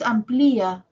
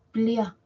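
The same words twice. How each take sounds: First: Amplía with the stress on the í; wrong stress. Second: Plia said slowly as one syllable; correct diphthong. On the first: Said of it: "no es amplía". (amplía con acento en la í) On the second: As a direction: say plia slowly, keeping ia together. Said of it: "sino plia". (plia despacio, en una sola sílaba) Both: Shown as a demonstration.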